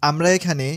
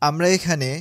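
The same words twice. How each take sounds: The two takes are said the same way.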